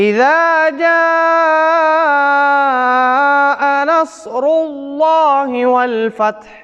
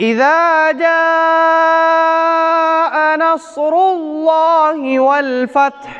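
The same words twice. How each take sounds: The two takes are said the same way.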